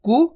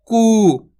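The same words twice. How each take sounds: First: कु said with a short clipped u vowel; quick short कु; teacher contrasting the short u matra. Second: कु said with a long held oo vowel, louder; teacher contrasting the long oo matra; long koo. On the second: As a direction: stretch the कु into koo. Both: Shown as a demonstration. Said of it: "छोटे ऊ की मात्रा भी लिख देता हूँ".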